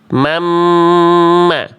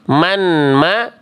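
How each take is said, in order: First: The n merges into a doubled, nasal m. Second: The n is sounded separately before the m. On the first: The speaker calls it right. "tapi mamma" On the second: The speaker calls it wrong. "Nggak dibaca man ma"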